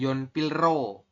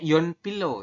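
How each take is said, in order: First: The middle consonants are said as L then R. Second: The middle consonants are both said as L. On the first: The speaker calls it wrong. "bukan yon pilro" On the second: The speaker calls it right. "Ini dibacanya yon pilo ya"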